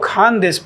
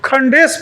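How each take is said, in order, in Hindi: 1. पहले अक्षर में लंबा स्वर है। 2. पहले अक्षर में छोटा स्वर है। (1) "इसको खान देश पढ़ा जाएगा" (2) "उसका प्रोनाउंसिएशन भी मैं नहीं कर रहा था। अंग्रेजी में खंडेश पढ़ रहा था।"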